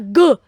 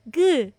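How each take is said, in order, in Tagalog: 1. Binibigkas ang G nang matigas at madiin. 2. Binibigkas ang G nang malambot at banayad. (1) "hindi siya G. Hindi tayo galit" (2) "Soft po, It's G"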